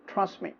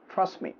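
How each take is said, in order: Both takes have the same delivery.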